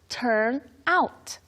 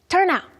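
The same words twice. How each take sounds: First: The phrase is said at a slow pace. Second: The phrase is said at a very quick pace.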